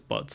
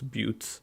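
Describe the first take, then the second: First: The vowel is short, like in 'cut'. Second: The vowel is a long 'you' sound. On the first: The speaker calls it wrong. "I don't think it's butts" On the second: The speaker calls it right. "I think it's buttes"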